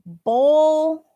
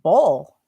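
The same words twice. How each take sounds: First: Bowl said higher, with a long round o; bowl demo. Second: Bowl lower and clipped with a final l; second bowl take. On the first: Teacher answering a viewer, showing Bowl higher. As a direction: stretch out Bowl. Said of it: "somebody's asking about bowl". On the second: Teacher repeating Bowl lower for the viewer. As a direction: say Bowl low with a clear l. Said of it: "That rhymes better with call". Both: Shown as a demonstration.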